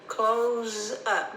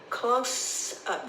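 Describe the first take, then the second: First: The s in close is voiced like z. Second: The s in close is unvoiced like s. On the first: To shut and lock a business. "Notice I put a Z there because sometimes it might sound like an S" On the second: A picture taken very close. "This time the S sounds like an S, not a Z"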